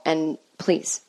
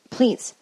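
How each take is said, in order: First: Said in the usual way. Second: Please pushed higher and harder; second please, punched as an exasperated plea; emphatic please. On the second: Real, not acted. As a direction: hit the second please with a rise. Pleading repetition.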